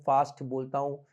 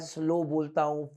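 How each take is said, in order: First: fast said a little quicker; fast speech demo. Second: slow drawn out a little; slow speech demo. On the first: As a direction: move briskly through fast बोलता हूँ. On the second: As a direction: stretch slow to show a slower pace. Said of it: "जो मैं आज slow बोलता हूँ". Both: Shown as a demonstration.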